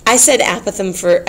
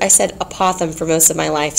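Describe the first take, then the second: First: Apothem as AP-uh-thum; stress on first syllable. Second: Apothem as uh-POTH-um; stress on second syllable. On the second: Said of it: "so if you say apothegm". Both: Shown as a demonstration.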